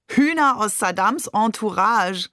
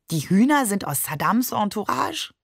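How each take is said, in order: First: "Hühner aus Saddams Entourage" called out, higher, falling; amused exclamation. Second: "Entourage" lifted at the end, puzzled; puzzled question. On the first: Shakir repeats "Saddams Entourage" amid laughter, called-out exclamation. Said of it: "rief Shakir". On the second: Baffled child asks about "Saddams Entourage", puzzled rising question. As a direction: ask "Die Hühner sind aus Saddams Entourage?" with rising tune. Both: A narrator's reading.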